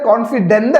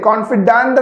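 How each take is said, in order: First: The last syllable has a short 'dent' sound. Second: The last syllable has a longer 'dahnt' sound. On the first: The speaker calls it wrong. "കോൺഫിഡന്റ് അല്ല" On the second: The speaker calls it right. "ചെറിയൊരു sound വ്യത്യാസം ലാസ്റ്റിലേക്ക് വരും"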